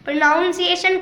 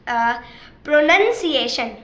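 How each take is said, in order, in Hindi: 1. दूसरा अक्षर 'nown' जैसा सुनाई देता है। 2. दूसरा अक्षर 'nun' जैसा सुनाई देता है। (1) "प्रोनाउंसिएशन कुछ नहीं होता" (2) "इसकी असली जो आप बोलेंगे"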